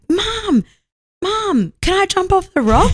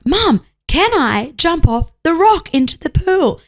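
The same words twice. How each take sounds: First: Put-on high child calling for mum; little girl voice. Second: Put-on high, slow child voice; insistent little girl. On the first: Daughter asking mum to jump, imitated high child voice. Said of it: "Kelsey's little girl was like". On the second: Daughter repeating her request to mum, slow high child voice. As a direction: spell it out slowly as a kid. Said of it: "And she's like".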